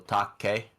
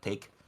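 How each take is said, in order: First: The word is said with two syllables. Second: The word is said with one syllable. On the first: It is the Japanese name. The speaker calls it right. "usually is two symbols, not symbols, two syllables. So Take" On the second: It is the English word. The speaker calls it wrong. "not take"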